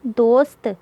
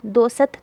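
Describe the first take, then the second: First: दोस्त as one syllable, "dost"; no vowel after s in दोस्त; half-sounded s. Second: दोसत in two syllables, "do-sat"; full s with its vowel in दोसत; wrong full-vowel reading. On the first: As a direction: run s straight into t in दोस्त. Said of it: "सीन को आधा पढ़ेंगे". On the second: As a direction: put a short vowel between s and t in दोसत. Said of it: "दोसत तो नहीं पढ़ाना मैंने". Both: Shown as a demonstration.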